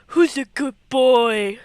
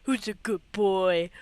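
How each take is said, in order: First: Louder, slow, sing-song voice for a dog; doggy baby talk. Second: Said in the usual way. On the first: Shown as a demonstration. Player cooing at wolf Link, hammed-up doggy talk. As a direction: coo it at the wolf like a proud pet owner. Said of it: "first take contrasts". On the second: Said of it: "second take contrasts".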